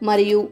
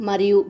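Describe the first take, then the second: The two takes are said the same way.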